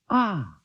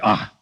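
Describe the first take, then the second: First: It sounds pleased and warmly satisfied. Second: It sounds doubtful and disbelieving.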